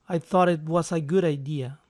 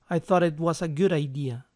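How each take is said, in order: The two takes are said the same way.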